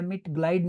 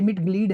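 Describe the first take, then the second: First: The second vowel sounds like 'eye'. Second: The second vowel sounds like 'ee'. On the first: The speaker calls it wrong. "मिट ग्लाइड नहीं, आइंदा ये गलती की ना" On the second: The speaker calls it right. "अब ये मिट ग्लीड है"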